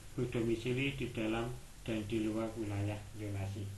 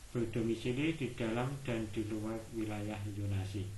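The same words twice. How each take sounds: No difference in how they are said.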